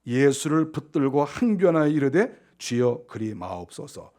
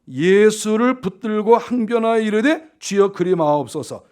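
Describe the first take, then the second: First: Said in the usual way. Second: "예수를 붙들고" drawn out slowly and forcefully; emphatic re-reading. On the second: Shown as a demonstration. Preacher rereads Peter's protest for the congregation, emphatically. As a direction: lean hard on "항변하여", slow and deliberate. Same verse replayed with emphasis after pondering.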